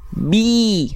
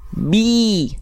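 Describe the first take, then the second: First: The vowel sounds like a clear i. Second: The same.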